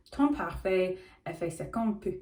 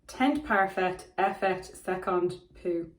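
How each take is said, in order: First: "Parfait Effet" said French-style as par-fay eh-fay; attempted French pronunciation. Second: French read slowly with Irish pronunciation; best Irish accent. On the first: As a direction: have a go at "Teint Parfait Effet Second Peau" in French, final consonants mostly dropped. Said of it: "but it's in French". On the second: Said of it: "in her best Irish accent". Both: Shown as a demonstration.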